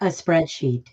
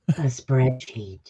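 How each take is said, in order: First: It is said in a plain voice. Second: It is said in a sultry voice.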